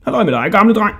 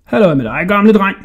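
First: High, cheeky hail; calling out. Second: Raised, cheeky hail; calling out. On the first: Hodja teasing the jailer from the other cell, calling out high. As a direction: call out teasingly. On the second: Hodja teasing the old jailer, calling out loudly. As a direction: call out cheekily to the old man. Boy calls to passing jailer. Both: A narrator's reading.

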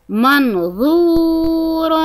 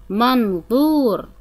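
First: منظور drawn out slowly and higher, full ظ; slow emphatic ظ. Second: Said in the usual way. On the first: Shown as a demonstration. Teacher modelling ظ in منظور, slow and high. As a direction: stretch منظور, fill the ظ. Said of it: "طريقة نطق حرف الظاء". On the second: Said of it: "طريقة نطق".

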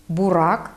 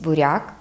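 First: Бурак with a hard r, "bu-RAK". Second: Said in the usual way. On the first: Shown as a demonstration. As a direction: dialect Бурак, no softening of r. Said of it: "твердий". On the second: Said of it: "замість".

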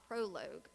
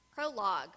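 First: Said in the usual way. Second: Prologue repeated, louder, falling firmly; repeated for emphasis. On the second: Shown as a demonstration. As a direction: restate Prologue with weight.

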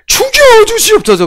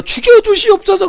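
First: High, falling plea of a kneeling courtier; begging subject from a historical drama. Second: High, pleading cry of a kneeling courtier; begging subject from a historical drama. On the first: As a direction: cry out for the king's punishment, pitched way up. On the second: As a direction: beg the king for death, pitched way up. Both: Retold or imitated. A courtier begs the king for death in a historical drama, high pleading cry. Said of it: "사극 봐요".

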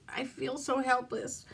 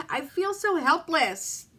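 First: Softer, fading repeat of "helpless"; quiet crying. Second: Higher, slow sob of helpless; breaking on "so helpless"; crying. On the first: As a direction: whimper "I feel so helpless" under her breath. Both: Real, not acted. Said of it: "sit here and cry on camera".

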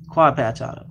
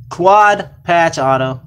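First: Said in the usual way. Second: Drawn-out, louder card reveal; slow, louder hype call for the card; slow hype announce. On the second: Real, not acted. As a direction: stretch it out like a big pull.

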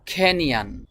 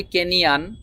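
First: খেনিয়ান with an aspirated kh at the start; British American way. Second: কেনিয়ান with a plain unaspirated k; our usual Bengali way. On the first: Teacher modelling the native pronunciation, aspirated kh. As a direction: breathe out hard on the kh of খেনিয়ান. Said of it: "তারা বলে খেনিয়ান". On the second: Teacher showing the common local way, plain k. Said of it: "আমরা বলি কেনিয়ান". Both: Shown as a demonstration.

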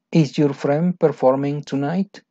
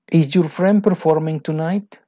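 First: Said in the usual way. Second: First take higher and louder; emphatic read. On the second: Shown as a demonstration. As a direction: lift the question brightly. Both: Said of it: "question read twice".

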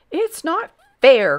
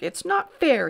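First: Put-on high, loud, drawn-out childish protest; indignant cry. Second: Indignant cry. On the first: Grand Duke out of arrows, indignant cry. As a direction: wail it like a thwarted boy. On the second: Grand Duke giving up on the hat, indignant cry. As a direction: repeat the complaint in a boyish whine. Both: A narrator's reading. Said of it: "cried the Grand Duke".

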